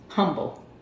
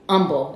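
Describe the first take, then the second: First: The word starts with a clear H sound. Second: The word starts without an H sound. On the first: The speaker is not from the area. "I'm going to pronounce the H" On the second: This is how locals say the name. "as they say out here"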